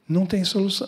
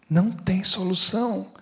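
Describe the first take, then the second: First: The phrase is spoken quickly. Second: The phrase is spoken slowly. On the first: The speaker calls it wrong. "Está muito rápido" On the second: The speaker calls it right. "Eu falo mais devagar"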